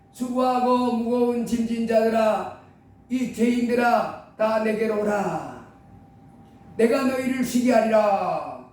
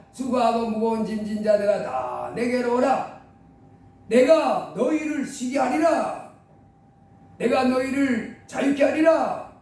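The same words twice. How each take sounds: First: Slow, solemn invitation; solemn call of Jesus. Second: Slow, weighty invitation; solemn call of Jesus. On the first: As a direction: call gently and slowly to the weary. (예수님이 죄인들을 부르는 느리고 장엄한 말투) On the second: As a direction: let each phrase land slowly. (예수님이 부르시는 느리고 무게 있는 말투) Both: Acted.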